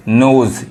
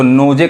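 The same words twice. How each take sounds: First: नोज said as "nose", silent final e; नोज with a long o and no vowel after the z; right pronunciation. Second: नोजे with the final e sounded, "no-jay"; नोजे said wrongly, final e pronounced as ए; wrong pronunciation. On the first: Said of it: "नोजे कहेंगे तो गलत हो जाएगा". (नोज का सही उच्चारण, आख़िरी ई नहीं बोलना) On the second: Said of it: "तो गलत हो जाएगा". (नोजे का गलत उच्चारण, आख़िरी ई भी बोलना) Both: Shown as a demonstration.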